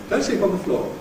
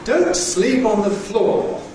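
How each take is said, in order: First: It is spoken quickly at a natural pace. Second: It is spoken slowly and very clearly. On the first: "at normal speed" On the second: "in special, slow, easy style"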